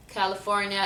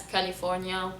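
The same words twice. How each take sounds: First: California in an American accent. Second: Softer Lebanese California; Lebanese accent. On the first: Announcing it to viewers, American accent. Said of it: "How do we say states". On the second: Showing how Lebanon says it, Lebanese accent. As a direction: say California with a clear "ee" in "li". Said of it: "it's California". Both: Shown as a demonstration.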